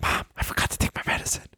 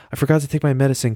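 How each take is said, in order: First: Hushed, hurried whisper to mom; urgent whisper. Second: Higher, hurried plea to mom; acting out a child asking to be fetched; pleading kid on phone. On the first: Acted. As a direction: whisper it fast like a secret signal. Urgently hinting to mom on phone.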